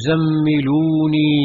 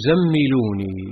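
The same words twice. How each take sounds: First: Slow, shaken plea; a touch of trembling fear; mildly trembling plea. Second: Faint trembling whisper-like plea. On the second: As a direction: trail off in fear. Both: A narrator's reading. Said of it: "قال وهو يرتجف".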